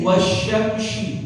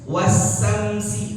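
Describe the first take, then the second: First: Both s-sounds are pronounced heavy, as sh. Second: Both s-sounds are pronounced thin, as plain s. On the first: "Jangan dibaca tebal dua-duanya. Jadi wasyamsi, salah" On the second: "Atau dua-duanya dibaca tipis. Wasamsi, itu juga sah, salah"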